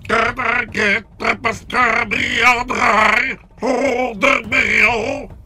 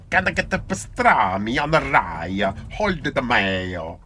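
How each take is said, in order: First: It is said in a robotic Dalek voice. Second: It is said in an Italian accent.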